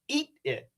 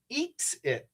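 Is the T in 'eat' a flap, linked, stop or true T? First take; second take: stop T; true T. First: The T is cut off with a stop. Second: The T is fully released and separate. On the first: "I could make this a stop T and say" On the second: "It could be a true T"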